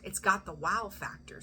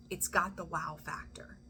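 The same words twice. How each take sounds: First: Said in the usual way. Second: Whispered repeat for effect; awed whisper. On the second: Real, not acted. Reader stresses the good news to Scorpio, awed whisper. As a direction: drop to a whisper on the wow factor.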